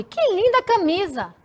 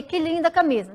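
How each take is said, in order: First: "Que linda camisa" lifted high on linda, full of admiration; admiring exclamation. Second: Said in the usual way. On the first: Shown as a demonstration. Teacher correcting her own flat reading to show admiration. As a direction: read it with real admiration, pitched up. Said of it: "Admiração". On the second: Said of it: "Não, eu li".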